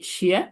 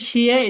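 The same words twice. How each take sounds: First: The syllable is said with the second tone. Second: The syllable is said with the first tone. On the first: It means shoes. "Second tone অর্থ কি শিয়া" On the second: It means some. "প্রথম টোন হচ্ছে শিয়া"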